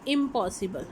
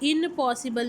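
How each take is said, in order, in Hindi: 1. पहला शब्दांश m ध्वनि पर खत्म होता है। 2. पहला शब्दांश n ध्वनि पर खत्म होता है। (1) "हम कहते हैं इम्पॉसिबल" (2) "इनपॉसिबल नहीं हम कहते हैं"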